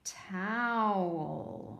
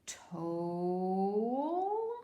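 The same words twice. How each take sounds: First: "Towel" with ow as in cow, drawn out; ow sound. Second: "Toll" with a long O as in snow, drawn out and rising; long O attempt. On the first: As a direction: sound out "Towel" slowly with a falling tune. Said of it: "Let's try it with ow". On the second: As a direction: try "Toll" slowly, as if questioning it. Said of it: "Let's try this one both ways". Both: Shown as a demonstration.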